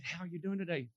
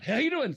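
First: Soft, careful hello; softened, unthreatening greeting; careful gentle greeting. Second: High, booming mock greeting; startlingly loud, overeager hello; sudden loud greeting. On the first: Retold or imitated. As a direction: greet them gently so as not to startle. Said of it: "Okay, do this very slowly". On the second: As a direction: blurt it out far too loudly and high. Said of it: "Don't just, like, walk up".

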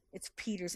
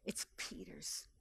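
First: Said in the usual way. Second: Hushed emphatic whisper; whispered, tender aside. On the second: Acted. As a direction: breathe it out like a secret.

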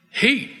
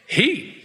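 First: Heat said high then falling firmly. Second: Heat with a high rising lift. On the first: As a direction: answer it: Heat, with a firm drop. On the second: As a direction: pose Heat like a question. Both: Shown as a demonstration.

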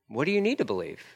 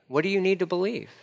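First: Gentle, softer echo of the question; softer repeat. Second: Higher, plainly asked question; raised question. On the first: Jesus gently repeating the question to a doubter, softer. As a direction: ask it again, quietly. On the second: Jesus first asking a doubter, raised. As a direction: ask it up and clear first. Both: Acted.

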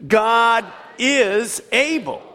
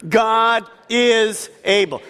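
First: Slower, higher and stronger, "God is able" dragged out with conviction; said like you believe it. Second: Slow, stressed God is able; congregation call and response. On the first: Preacher urging the church to say it with conviction. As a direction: make them believe every word of "God is able". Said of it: "Say it like you believe it". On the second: Preacher leading the congregation in a slow emphatic chant. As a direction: lead the church in saying it. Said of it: "Say it with me". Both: Shown as a demonstration.

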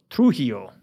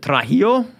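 First: Trujillo with "Tru" as the first syllable, falling; corrected pronunciation. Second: Trujillo with "Tra" as the first syllable, rising; questioned pronunciation. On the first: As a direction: state "Trujillo" as "Troo-HEE-oh". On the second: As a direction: ask "Trujillo" as "Tra-HEE-oh?". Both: Shown as a demonstration. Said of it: "I didn't say it right".

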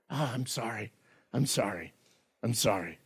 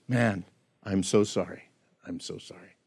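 First: A murmured, much softer "I'm sorry", just going through the motions; hollow apology. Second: Soft, low "I'm so sorry", fading to a whisper; broken apology. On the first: Preacher imitating a kid caught red-handed, mumbling a hollow sorry. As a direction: mumble "sorry" only because you got caught. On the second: Preacher voicing a truly repentant sinner, whispering brokenly. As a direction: whisper the second sorry as if heartbroken. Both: Retold or imitated.

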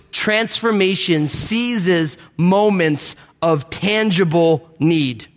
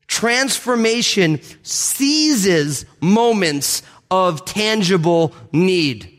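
First: Slow, weighty statement; slow emphatic. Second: Very slow emphatic. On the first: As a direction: lay the phrase down slowly. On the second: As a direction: drag each word out for weight. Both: Shown as a demonstration. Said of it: "repeated key phrase".

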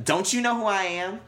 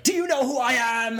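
First: Much higher, louder indignant whine; much higher, louder spoiled celebrity; entitled outrage. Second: High, loud entitled demand; loud, high spoiled rich brat; entitled outrage. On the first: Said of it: "Would you say it like that". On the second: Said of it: "you're like". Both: Retold or imitated.

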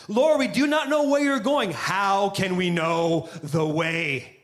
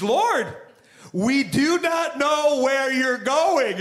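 First: Said slower. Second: Higher and slow, every word drawn out; slow unhinged. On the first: Thomas repeating the question slowly for Jesus. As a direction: say it slower so he understands. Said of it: "maybe if I say it slower". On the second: Thomas exasperated at Jesus, said slowly. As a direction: spell it out slowly as if to someone slow. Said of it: "he's coming a little unhinged". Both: Retold or imitated.

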